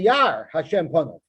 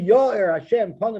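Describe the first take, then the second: First: The first word has one syllable, yar. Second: The first word has two syllables, ya-ir. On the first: It turns the blessing into a curse. The speaker calls it wrong. "Yar is a lashon of klola" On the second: May God shine His face upon you. The speaker calls it right. "which means Hashem should light up for you"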